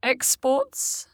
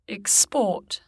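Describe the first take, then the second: First: "exports" as a noun, EX-ports; stress on first syllable. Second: "export" as a verb, ex-PORT; weak first vowel in "export", weight on PORT; stress on second syllable. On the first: Teacher shows the noun, "exports" stressed on EX. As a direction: put the weight of "exports" on EX. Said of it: "stressed on the prefix". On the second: Teacher shows the verb, "export" stressed on PORT. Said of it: "stressed on the stem". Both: Shown as a demonstration.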